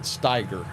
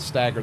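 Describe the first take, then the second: First: The first vowel is the long 'eye' sound. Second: The first vowel is the short 'a' sound. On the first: This is how others pronounce it. "I've never pronounced it Steiger" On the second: This is how it is pronounced locally. "I've always pronounced it Stagger"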